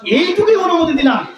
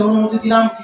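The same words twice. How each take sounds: First: High, emphatic swoop on এইটুকুই; stress on এইটুকুই. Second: Said in the usual way. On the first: Acted. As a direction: lift এইটুকুই high to mark the limit. Repeats it to stress the limit.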